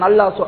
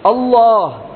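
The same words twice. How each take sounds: First: The word is said lightly, without a full mouth. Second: The word is said heavily, with a full mouth. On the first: The speaker calls it wrong. "அல்லாஹ் அல்லாஹ் என்று சும்மா நாம அல்லாஹ் அல்லாஹ் சொல்றான் அல்லாஹ் அப்படி அல்ல" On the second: The speaker calls it right. "மொத்தமா சொல்லணும் அல்லாஹ் என்று"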